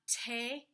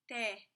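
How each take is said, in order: First: The t is aspirated with a puff of air. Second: The t is dental with no puff of air. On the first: The speaker calls it wrong. "It's not te" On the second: The speaker calls it right. "A little dental T"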